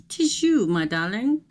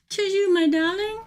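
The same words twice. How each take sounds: First: Mock theatrical greeting. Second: Much higher, sing-song mock-grand greeting; theatrical high "'Tis you, my darling."; hammed-up greeting. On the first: Playful greeting to viewer. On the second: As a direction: greet her like a grand dame.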